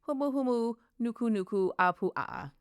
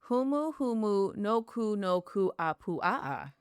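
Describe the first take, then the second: First: The name is said at a normal, quicker speed. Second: The name is said very slowly, syllable by syllable.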